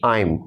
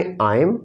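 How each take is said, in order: First: I am said the British way; British English I am. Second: I am said the American way; American English I am. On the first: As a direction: show the British I am. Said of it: "British English में आप कहते हैं". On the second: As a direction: show the American I am. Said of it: "American English में". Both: Shown as a demonstration.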